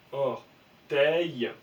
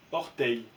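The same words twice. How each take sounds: First: Orteil étiré, très lentement; lire lentement. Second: Said in the usual way. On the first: Shown as a demonstration. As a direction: poser orteil syllabe par syllabe. (orteil dit très lentement) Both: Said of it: "on sait qu'il va se faire est".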